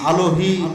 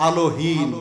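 No difference in how they are said.

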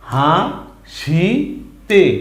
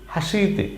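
First: It is said slowly, syllable by syllable. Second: It is said quickly as one word. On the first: "উচ্চারণগুলো মনে রাখেন" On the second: "দ্রুত বললে কি হয়?"

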